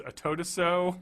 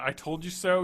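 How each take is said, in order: First: "told you" slurred into "toad a" in "I told you so"; Ricky's mispronunciation. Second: Said in the usual way. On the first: Retold or imitated. Host quoting Ricky's botched phrases to co-host, "I told you so" slurred as "a-toad-a-so". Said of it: "He just doesn't pronounce words correctly". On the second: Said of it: "instead of, uh".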